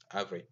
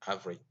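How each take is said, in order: Both takes have the same delivery.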